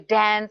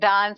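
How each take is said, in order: First: It is said in an American accent. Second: It is said in an Indian accent.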